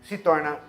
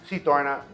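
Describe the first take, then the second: The two takes are said the same way.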